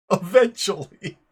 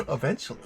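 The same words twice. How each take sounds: First: Loud, bursting into laughter on eventually; eventually blurted through a laugh; cracking up while saying eventually. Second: Said in the usual way. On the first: Real, not acted. Laughs mid-word, then repeats it.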